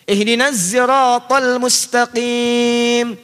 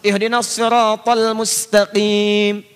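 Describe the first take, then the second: First: Sirat begins with a voiced z sound. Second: Sirat begins with a heavy, emphatic s sound. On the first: "Ada yang gak bisa sin, gak bisa sod" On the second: "Makanya muncul menggunakan sod, riwayat hafiz"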